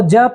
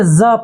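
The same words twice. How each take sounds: First: "ज" as ja, with a hard j; j sound. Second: "ज" as za, with a buzzing z; z sound. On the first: Teacher contrasting letters for students, "ज" said as plain ja. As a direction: say "ज" like the j in jug. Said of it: "इसको ज पढ़ेंगे". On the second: Teacher contrasting letters for students, "ज" said as za. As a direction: say "ज" like the z in zoo. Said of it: "यहाँ ज पढ़ेंगे". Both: Shown as a demonstration.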